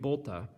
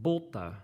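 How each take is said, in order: First: The name is said without an Italian accent. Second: The name is said with an Italian accent. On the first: "but it would be Bolta" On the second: "I kind of put an Italian accent on there"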